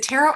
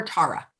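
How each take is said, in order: First: Tara with the first vowel as in "air"; Tara as TAIR-uh. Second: Tara with the first vowel as in "car"; Tara as TAR-uh. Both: Shown as a demonstration. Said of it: "is it Tara or Tara".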